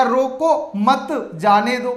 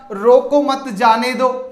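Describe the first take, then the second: First: रोको set apart, then मत जाने दो; pause after रोको. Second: रोको मत run together as one unit, then जाने दो; grouped as रोको मत. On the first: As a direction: break after रोको and lean on मत. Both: Shown as a demonstration. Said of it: "मध्य में अल्प विराम से वाक्य को अलग-अलग".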